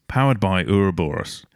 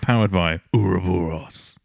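First: It is said in the speaker's normal voice. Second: It is said in a put-on villain voice.

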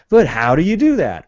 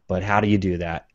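First: It is said with more urgency. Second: It is said calmly, without urgency.

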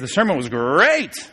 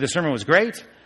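First: Great is drawn out with strong emphasis. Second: Great is said plainly without extra emphasis.

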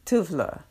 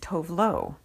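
First: The name is said with a Swedish pronunciation. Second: The name is said with an American pronunciation. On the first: "the Swedish pronunciation is more of T-U-V, Tuv, and then L, L-U" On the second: "whereas the American pronunciation is"

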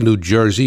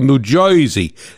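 First: It is said in a plain standard accent. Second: It is said in a local New Jersey accent. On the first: The speaker calls it wrong. "You don't say New Jersey" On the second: The speaker calls it right. "you go New Jersey"

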